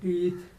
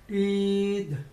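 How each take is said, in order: First: It is said the usual Indian way. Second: It is said in an American accent.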